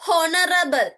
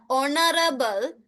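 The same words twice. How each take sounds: First: "honorable" with an audible H at the front; sounded H. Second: "honorable" starting on the O vowel; silent H. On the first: Teacher showing pupils what it's not, H sounded. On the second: Teacher telling pupils what you hear, silent H. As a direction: say "honorable" without any H. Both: Shown as a demonstration. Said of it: "it's not honorable".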